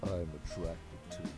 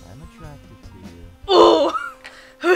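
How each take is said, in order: First: It sounds deep, serious and heartfelt. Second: It sounds teasing, with a smirk.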